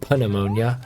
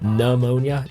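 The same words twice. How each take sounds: First: The word begins with a P sound. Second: The word begins with an N sound. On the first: The speaker calls it wrong. "It's not" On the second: The speaker calls it right. "why do we have a P at the beginning of that word?"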